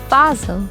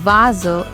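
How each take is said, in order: First: The word begins with a voiceless F sound. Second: The word begins with a voiced V sound. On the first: The speaker calls it wrong. "not Vase" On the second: The speaker calls it right. "I pronounced V A S E as Vase"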